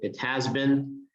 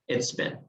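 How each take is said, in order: First: The word has is said in full. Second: The word has is reduced to a contraction. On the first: The speaker calls it wrong. "in the speaking, we don't say it has been" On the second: The speaker calls it right. "we say it's been"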